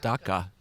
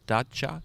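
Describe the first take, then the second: First: The middle consonant is a hard k sound. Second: The middle consonant is a ch sound. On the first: The speaker calls it wrong. "I think of this as uh, pronounced as dak, daca" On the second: The speaker calls it right. "but the pronunciation is dacha"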